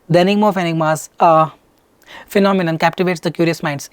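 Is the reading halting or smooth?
halting. It is read haltingly, with breaks. The speaker calls it wrong. "They're not like this. You're breaking"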